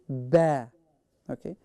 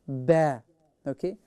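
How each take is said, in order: Both takes have the same delivery.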